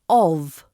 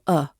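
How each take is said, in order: First: The word is said with a full vowel and v. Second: The word is only a weak vowel. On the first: "And then we have of" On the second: "This becomes either of or a"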